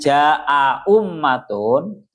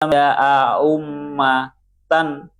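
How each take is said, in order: First: Both glottal stops are pronounced fully and clearly. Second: The second glottal stop is softened toward a w. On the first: "dengan ditahqiqkan dua hamzahnya" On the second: "itu bahasa yang tashil"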